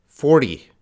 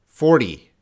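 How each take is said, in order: No difference in how they are said.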